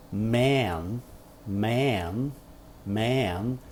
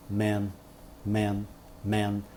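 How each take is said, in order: First: Man with a long, wide open vowel. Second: Man clipped short and quick with a relaxed vowel. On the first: Teacher comparing the long open vowel in man. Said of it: "eu alongo a vogal". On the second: Teacher comparing the quick relaxed vowel in man. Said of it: "falo bem rapidinho". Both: Shown as a demonstration.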